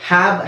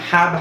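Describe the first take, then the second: No difference in how they are said.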